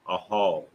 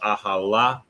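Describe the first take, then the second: First: The word ends on a consonant sound. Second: The word ends with an extra vowel sound. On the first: The speaker calls it right. "you just pronounce it with the last character" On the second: The speaker calls it wrong. "instead of saying la"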